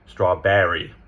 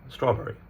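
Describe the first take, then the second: First: American accent, with the R sound clearly pronounced. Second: British accent, with the R sound not emphasized. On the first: "But the Americans, ... they're putting the emphasis on the back" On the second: "that's English"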